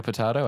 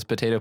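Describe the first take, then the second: First: Potato said as po-TAH-to, the British way. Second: Potato said as po-TAY-to, the American way; potato with long a. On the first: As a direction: say potato with an open ah sound. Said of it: "He says potato, potato". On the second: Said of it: "He says potato". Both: Shown as a demonstration.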